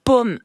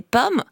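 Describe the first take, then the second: First: First "pomme" with short open o; "pomme" pronounced with the o of porte. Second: Second "pomme" said as paume, closed o; "pomme" pronounced with the long o of eau. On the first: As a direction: say "pomme" as in apple, open vowel. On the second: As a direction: say "pomme" like paume, lips tightly rounded. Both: Shown as a demonstration. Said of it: "si vous confondez pomme et pomme".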